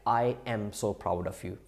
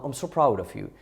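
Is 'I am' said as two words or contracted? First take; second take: two words; contracted. First: The words 'I am' are said fully and separately. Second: The words 'I am' are contracted into one syllable. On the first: The speaker calls it wrong. "they do it like" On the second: The speaker calls it right. "it would be better to say I am or I'm"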